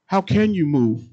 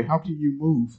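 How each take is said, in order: First: CAN pushed higher and louder; louder emphatic repeat. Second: Said in the usual way. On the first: Acted. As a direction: hit the repeat of "How can you move?" with force. Repeats question, second louder.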